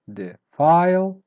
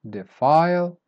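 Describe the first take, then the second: First: "Defile" split slowly, loud high "file"; weak then up, slowly. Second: "Defile" joined up, with loud "file"; weak then up. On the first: Teacher showing you go up, "Defile" slow and split. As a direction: draw out "Defile", pausing before a strong "file". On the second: Teacher repeating for learners, "Defile" whole with final stress. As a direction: say "Defile" in one go, stressing the end. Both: Shown as a demonstration. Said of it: "start weak and then you go up".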